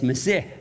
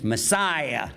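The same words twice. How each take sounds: First: It is pronounced the original Hebrew way. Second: It is pronounced the usual English way. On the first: The speaker calls it right. "it's Messiah. It's a Hebrew word" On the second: The speaker calls it wrong. "we mispronounce it in English"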